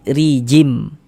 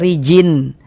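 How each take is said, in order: First: The word ends with a merged M sound. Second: The word ends with a clear N sound. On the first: The speaker calls it right. "tapi rijim" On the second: The speaker calls it wrong. "jangan dibaca rijin"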